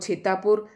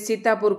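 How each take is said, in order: First: The word begins with a ch sound. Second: The word begins with an s sound. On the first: "स के स्थान पर भी छ बोला जाता है" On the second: "स के स्थान पर"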